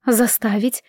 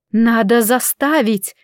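First: "Заставить" echoed as a doubting question. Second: Slow, firm, confident counter; insist, drawing out "заставить". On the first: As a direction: toss the word back, questioning it. Mother questions the aunt's word. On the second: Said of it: "уверенно возразила тётя". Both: A narrator's reading.

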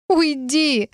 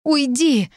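First: High, pitiful little plea; plaintive, high-pitched voice. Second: High-pitched, upset order to leave; high, upset cry; distressed plea. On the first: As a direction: beg pitifully to be left alone. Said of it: "попросила я уже жалобно". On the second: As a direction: push them away in distress. Ashamed, sends him away. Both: A narrator's reading.

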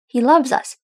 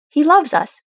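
First: Staunch. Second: Firm and loud, leaning on loves; staunch. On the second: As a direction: plant your feet and insist he loves us. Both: A narrator's reading. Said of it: "Thorin said staunchly".

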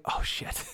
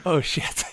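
First: A whispered oh shit under the breath; softly whispered curse; whispered panic. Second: Said in the usual way. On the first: Retold or imitated. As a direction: hiss it in quiet dread. Retold panic as runner comes.

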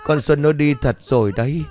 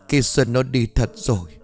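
First: Higher and louder, breaking into tears; loud sobbing. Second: Quieter, holding back the sobs; a softer sobbing take; sobbing softly. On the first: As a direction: cry it out in grief. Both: A narrator's reading. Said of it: "nói trong tiếng nấc".

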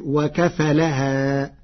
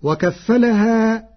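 First: وكفلها with a single light F, very slow; Warsh reading. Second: وكفلها with a doubled F, higher and slow; standard reading. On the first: Teacher demonstrating Warsh's single F in وكفلها, very slow. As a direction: say وكفلها as wa-kafalaha, slowly. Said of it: "بتخفيف الفاء". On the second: Teacher quoting the verse word before showing Warsh's light F. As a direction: recite وكفلها as wa-kaffalaha, slow and lifted. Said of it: "قرأ ورش كلمة وكفلها بتخفيف". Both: Shown as a demonstration.

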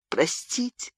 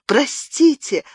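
First: Softer, choked plea of простите; a quiet tearful простите; sobbing plea. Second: A high crying простите; sobbing cry. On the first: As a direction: begin begging through tears, quietly. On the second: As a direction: break into an open sob. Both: A narrator's reading. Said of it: "зарыдала она".

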